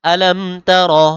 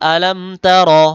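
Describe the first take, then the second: First: The second word ends on the consonant r. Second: The same.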